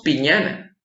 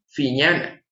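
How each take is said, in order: First: "piñana" with a plain p; "piñana" said with p, not f; "piñana" starting on a clear p; wrong p sound. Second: "fiñana" with p sounding like f; "fiñana" with f, not p; correct f sound. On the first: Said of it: "No decimos piñana". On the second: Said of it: "decimos fiñana". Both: Shown as a demonstration.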